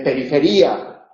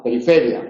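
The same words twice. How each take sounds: First: Periferia slowly, stressed perife-RÍ-a. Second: Periferia stressed peri-FE-ria. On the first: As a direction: break the final vowels of periferia, hitting RI. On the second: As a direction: hit FE and run the final ia together in periferia. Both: Shown as a demonstration. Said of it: "no, periferia".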